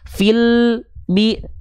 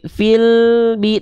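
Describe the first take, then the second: First: The l sound stops short before the b. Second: The l sound keeps flowing into the b. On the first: The speaker calls it wrong. "tidak seperti itu" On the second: The speaker calls it right. "tanpa terputus"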